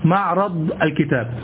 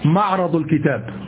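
No difference in how they are said.

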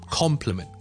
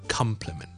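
First: The first syllable sounds like 'com'. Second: The first syllable sounds like 'come'. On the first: The speaker calls it right. "所以呢係compliment" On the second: The speaker calls it wrong. "就唔好读成compliment"

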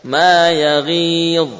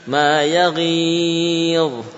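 First: The vowel is held for two beats. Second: The vowel is held for four beats. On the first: "boleh 2 harokat" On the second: "boleh 4 harokat"

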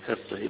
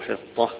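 First: The final vowel leans toward an 'e' sound. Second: The final vowel is an open 'a' sound. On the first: "هنا أيضا بالإمالة يقولوا فيها إمالة الهاء" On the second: "هنا هتلاقي الأشهر عدم الإمالة في الكلمة"

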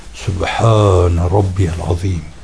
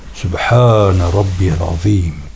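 Both takes have the same delivery.

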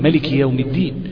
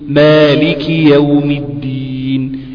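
First: The first vowel of the first word is short. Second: The first vowel of the first word is long. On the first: This follows another accepted reading. "مالك يوم الدين من غير ألف" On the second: This follows the speaker's own reading. "لازم أبين المد في كلمة مالك"

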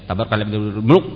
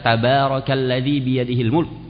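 First: The sounds are slurred together and unclear. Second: Each sound is pronounced clearly and fully. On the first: The speaker calls it wrong. "Jangan dibaca tabarakalladzi biyadihil mulk. Namanya udah muluk aja kita dengarnya" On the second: The speaker calls it right. "Jadi baca tabarakalladzi biyadihil mulk"

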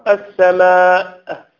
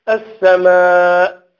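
No difference in how they are said.

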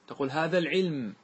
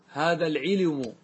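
First: The final word ends on silent consonants, no vowel. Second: The final word has a u-vowel before its last consonant. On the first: "قف على العلم" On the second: "انقل الضمة إلى اللام"

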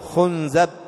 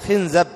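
First: The vowels are u, then a: khunzab. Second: The vowels are i, then a: khinzab. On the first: "ويجوز ضمها ... وهذه ضعيفة أو غريبة" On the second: "بكسر الخاء وفتح الزاي"

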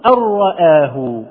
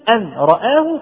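First: The n merges into a doubled r sound. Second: The n is pronounced separately before the r. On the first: The speaker calls it right. "إذا حققنا الإضغام فعلا نلاحظ أننا نقول أرآه" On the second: The speaker calls it wrong. "تلاحظ أن اللسان يرتفع إلى النون ثم يهبط ثم يرتفع إلى الراء"

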